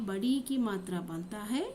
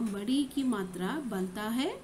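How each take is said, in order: Both takes have the same delivery.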